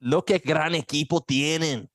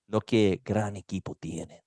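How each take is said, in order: First: Spanish with a strong Cuban accent; slow, lifted Cuban Spanish. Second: Said in the usual way. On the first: Shown as a demonstration. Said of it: "in your Cuban accent". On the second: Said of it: "not very Cuban".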